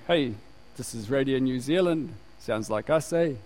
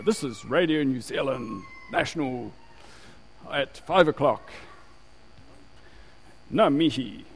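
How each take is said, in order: First: Imitating a casual local bloke on radio; laid-back Gisborne local, low-key and offhand; guy from Gisborne. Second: Imitating a formal station announcement; measured radio presenter impression, carefully placed words; old radio announcer. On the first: Preacher mimics the changed radio ident, casual Gisborne bloke. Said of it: "Like this guy from Gisborne". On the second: Preacher mimics the old Radio New Zealand ident, formal announcer voice. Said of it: "they always used to just have ... then they go".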